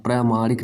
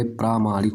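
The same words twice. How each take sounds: First: प्रामाणिक as "pra-maanik" with short first a; wrong short-vowel form. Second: प्रामाणिक as "praa-maanik"; correct long-vowel form. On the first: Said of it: "नहीं भाई". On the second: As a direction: open out the first "praa" of प्रामाणिक. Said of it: "होता है". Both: Shown as a demonstration.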